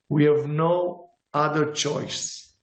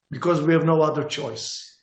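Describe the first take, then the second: First: We have no other choice said slowly, each word weighted; slow emphatic repeat. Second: Said in the usual way. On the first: Real, not acted. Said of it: "repeated, slowed down". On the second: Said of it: "repeated for emphasis".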